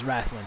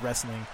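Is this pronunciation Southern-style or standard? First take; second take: Southern-style; standard. First: It has a Southern or Midwestern pronunciation. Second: It has the ordinary standard vowels.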